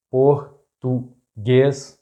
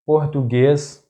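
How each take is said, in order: First: Português very slowly split, por - tu - guês; syllable by syllable. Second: Português as one word, stressed on final GUÊS; stress on accented syllable. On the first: Teacher breaking down an example word, português very slow in syllables. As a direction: break português into three widely spaced syllables. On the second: Teacher giving an example word, português stressed on last syllable. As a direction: say português joined up, landing on GUÊS. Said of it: "the stressed syllable is that one". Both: Shown as a demonstration.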